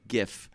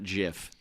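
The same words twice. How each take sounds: First: It begins with a hard g sound. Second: It begins with a soft j sound. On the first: The speaker calls it right. "graphic g g g g GIF" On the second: The speaker calls it wrong. "not GIF. Get out of here with your Jiffy peanut butter"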